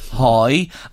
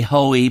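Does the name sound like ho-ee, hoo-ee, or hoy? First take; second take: hoy; ho-ee. First: The name is said as one syllable, hoy. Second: The name is said as two syllables, ho-ee. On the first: This is how it is said in Drogheda. "If he was in Drogheda, we'd say Hoy" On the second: This is how other people say it. "Other people would say Hoey"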